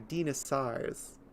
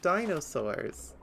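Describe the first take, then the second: First: It is said with Greek-style pronunciation. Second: It is said with American English pronunciation. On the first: The speaker calls it right. "they're dinosaurs" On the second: The speaker calls it wrong. "Americanizing them into not only English but American English"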